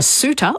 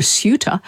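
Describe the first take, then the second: First: "suitor" as "sooter", no y-glide; plain S. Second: "suitor" as "syooter"; y-glide. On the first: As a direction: say "suitor" with S straight into oo. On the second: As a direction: say "suitor" with a y after the S. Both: Shown as a demonstration. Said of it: "a suitor or a suitor".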